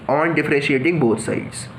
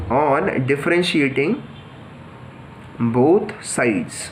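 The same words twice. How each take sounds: First: Said in the usual way. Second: Very slow, spaced out with long pauses; slow dictation. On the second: Shown as a demonstration. Teacher dictating the step to students, slow and spaced. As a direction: dictate it slowly so students can write it down. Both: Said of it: "तो हम simply यही करते हैं कि".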